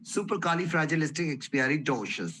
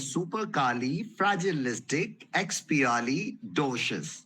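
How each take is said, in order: First: The word is said at a moderate speed. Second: The word is said slowly and carefully. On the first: "अब इसकी speed बढ़ाते रहेंगे धीरे धीरे।" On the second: "अब इसको आराम आराम से बोलेंगे।"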